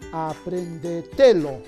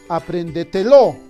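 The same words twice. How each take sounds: First: The stress falls on the syllable te. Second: The stress falls on the final syllable, lo. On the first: "Quizás sea grave" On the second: "Quizás sea aguda"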